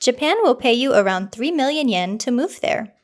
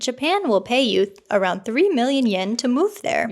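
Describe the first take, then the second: First: It is read in a flat, robotic AI-style voice. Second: It is read in a natural everyday voice.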